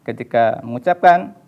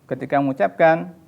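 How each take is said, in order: The two takes are said the same way.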